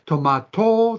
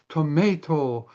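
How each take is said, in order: First: It is said in a British accent. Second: It is said in an American accent. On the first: "the English say" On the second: "the American calls them all"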